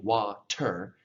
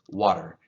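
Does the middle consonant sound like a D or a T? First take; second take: T; D. First: The middle consonant is a crisp T sound. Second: The middle consonant is a soft D-like sound. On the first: "you're not saying water" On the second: "a little softer"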